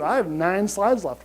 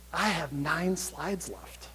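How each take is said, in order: First: Said in the usual way. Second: A slow, hushed aside to the audience. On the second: Real, not acted. Speaker confides the slide count, hushed and slow. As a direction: drop it to a hushed confession.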